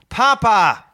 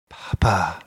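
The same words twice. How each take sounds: First: It is said firmly with conviction. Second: It is said softly and gently.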